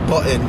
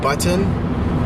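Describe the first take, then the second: First: The t is replaced by a throat catch. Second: The t is pronounced as a clear t. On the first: "will become like button" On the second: "the word button"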